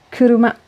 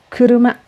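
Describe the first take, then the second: No difference in how they are said.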